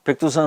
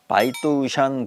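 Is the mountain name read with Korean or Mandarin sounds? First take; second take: Korean; Mandarin. First: The name is read with Korean sounds. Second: The name is read with Mandarin sounds. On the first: "백두산이라고 발음하는 건 우리 한국인밖에 없거든요" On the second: "중국인들은 이제 바이또샨 그렇게 발음하거든요"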